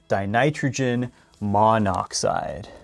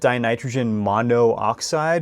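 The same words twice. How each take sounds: First: Only one o vowel is said in the middle. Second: Two separate o vowels are said in a row. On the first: The speaker calls it right. "Remove one of those O's and it sounds a lot better" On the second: The speaker calls it wrong. "two O's stuck together and they sound kind of awkward"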